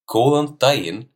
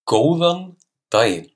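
First: It is said at normal conversational speed. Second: It is said slowly and carefully.

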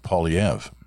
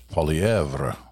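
First: The name is said with English pronunciation. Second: The name is said with French pronunciation. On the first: "but he's very happy with" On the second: "if you went by the truly French version"

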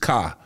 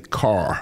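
First: The final R sound is dropped. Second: The final R sound is pronounced. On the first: "We didn't pronounce the R's. It was car" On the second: "We didn't say car"

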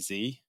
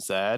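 First: The letter is said the American way. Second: The letter is said the British way.

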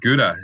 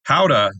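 First: The word begins with a hard G sound. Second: The word begins without a hard G sound.

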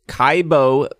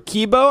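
First: The first vowel sounds like 'eye'. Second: The first vowel sounds like 'ee'. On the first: The speaker calls it wrong. "I think I was saying it wrong" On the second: The speaker calls it right. "the I is the E"

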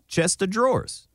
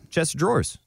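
First: The phrase is said slowly. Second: The phrase is said at normal speed.

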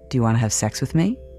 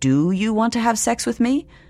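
First: Asked in a suggestive, hopeful tone. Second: Asked in a neutral, clinical tone.

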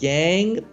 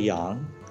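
First: The name is said with an English-style pronunciation. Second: The name is said with a Mandarin pronunciation. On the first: This is the everyday form the speaker is used to. "I'm used to Yang" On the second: This is the technically correct original form. "for the listeners who are Mandarin speakers, ... it's technically Yang"

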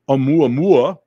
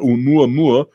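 First: The name is pronounced in an exaggerated, theatrical way. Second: The name is pronounced in a plain, ordinary way. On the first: The speaker calls it wrong. "I don't know why I say it like that. It's so ridiculous" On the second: The speaker calls it right. "that is what it's called"

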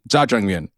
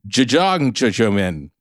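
First: The dish name is said in its standard form. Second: The dish name comes out garbled, with extra syllables. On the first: The speaker calls it right. "it's actually jajangmyeon" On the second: The speaker calls it wrong. "you were saying jajang jajomin"

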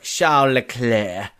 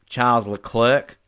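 First: The name is said with French pronunciation. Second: The name is said with English pronunciation. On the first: The speaker is feeling fancy. "If I'm feeling fancy" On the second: The speaker is feeling casual. "if it's just a Saturday night"

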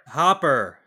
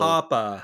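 First: The word ends with a pronounced r sound. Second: The final r is dropped, Boston style.

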